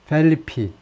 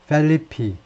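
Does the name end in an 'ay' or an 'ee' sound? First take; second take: ee; ee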